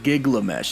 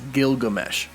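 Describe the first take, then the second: First: The name begins with the sounds 'gig-la'. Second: The name begins with the sounds 'gil-ga'. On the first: The speaker calls it wrong. "not to be confused with Giglamesh" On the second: The speaker calls it right. "it's Gilgamesh"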